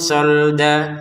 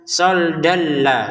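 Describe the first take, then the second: First: The word ends on a plain vowel. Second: The ending merges into la without nasal sound. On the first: The reader stops here. "Soldan dibaca solda karena berhenti" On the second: The reader continues to the next word. "tanwinnya bertemu lam dimasukin tanpa dengungan"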